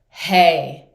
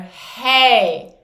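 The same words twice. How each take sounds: First: The voice sounds supported and powerful. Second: The voice sounds strained and thin. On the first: The speaker calls it right. "light engagement, feeling the weight and the power of the voice from here" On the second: The speaker calls it wrong. "the first one was fully relaxed belly, straining from here"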